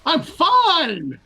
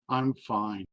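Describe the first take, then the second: First: It is said with lively excitement. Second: It is said flatly, without excitement.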